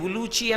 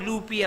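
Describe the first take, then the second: First: The name ends with a 'chi' sound. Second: The name ends with a 'pi' sound. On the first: "రెండు రకాలుగా ఎలా ఉచ్చరించినా" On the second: "రెండు రకాలుగా ఎలా ఉచ్చరించినా"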